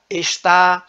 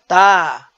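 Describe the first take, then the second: First: The word is said in full with two syllables. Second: The word is shortened to one syllable. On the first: This is the standard, careful form. "Na variedade padrão, há uma maior preocupação com a pronúncia" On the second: This is the everyday, non-standard form. "Na variedade não padrão, a pronúncia ela é simplificada"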